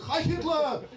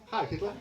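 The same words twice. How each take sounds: First: It is said loudly and forcefully. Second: It is said softly and gently.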